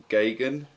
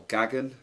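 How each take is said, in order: First: "Gagan" with a long a, GAY-gun; first pronunciation variant. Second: "Gagan" with a short a, GAG-un; alternative pronunciation. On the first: Offering viewers one reading of a surname, "Gagan" as GAY-gun. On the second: Offering viewers another reading of a surname, "Gagan" as GAG-un. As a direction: say "Gagan" to rhyme with wagon. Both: Shown as a demonstration. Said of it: "however you want to pronounce that".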